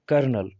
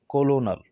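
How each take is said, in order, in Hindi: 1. यह शब्द दो अक्षरों में बोला जाता है, 'ker-nel'। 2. यह शब्द तीन अक्षरों में बोला जाता है, 'co-lo-nel'। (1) "पढ़ा जाता था ... कर्नल" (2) "ज़ाहरी तौर पर ये क्या है, कोलोनल"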